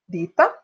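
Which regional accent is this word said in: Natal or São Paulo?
Natal. It is said with a Natal accent. "alguém de Natal dirá"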